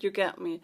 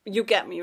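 First: Said in the usual way. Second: "you get me" pushed out louder, stress on get; louder emphatic "you get me". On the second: Real, not acted. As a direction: punch get, falling firmly.

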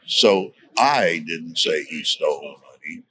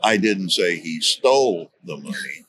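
First: "I" said with rising emphasis at the start; stress on I. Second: "stole" is the most prominent word; stress on STOLE. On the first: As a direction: lean on the word "I" in "I didn't say". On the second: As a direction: punch "stole" in the middle of the sentence. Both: Shown as a demonstration. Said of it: "gives inflection to one word".

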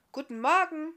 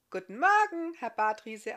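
First: Higher, louder called greeting; calling out. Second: Higher, louder bright female reply; young woman answering. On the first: Barthamiel calling good morning from his bed, loud. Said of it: "rief er von seinem Lager". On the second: Iska answering the guest's greeting, high and friendly. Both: Acted.

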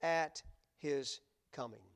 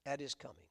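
First: "at his coming" drawn out slowly, each word weighted; slow emphatic reading. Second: "At his coming" repeated softer, let it sink in; "At his coming" echoed softly. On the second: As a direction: murmur "At his coming" back as a quiet afterthought. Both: Shown as a demonstration. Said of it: "notice the next three words".

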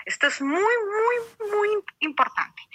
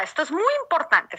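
First: Muy rising higher with each repeat, the last one held; stress on muy. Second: Said in the usual way. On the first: Shown as a demonstration. Preacher telling the family this matters, muy pushed up high. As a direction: lean harder on each muy.

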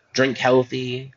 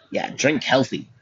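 First: "Drink healthy" drawn out slowly with a lift on "Drink"; slow it down, stretch out "Drink healthy". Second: Mock health advice. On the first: Vlogger mock-advising viewers, drawn out slowly. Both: Shown as a demonstration.

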